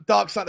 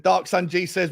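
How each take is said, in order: First: "Dark Sun" in a mild attempt at an Australian accent. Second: Said in the usual way. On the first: Shown as a demonstration. Host reading a viewer's name to his stream, in a light Australian accent. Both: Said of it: "that was my attempt at an Australian accent".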